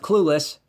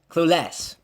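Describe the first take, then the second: First: The stress is on the first syllable. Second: The stress is on the second syllable.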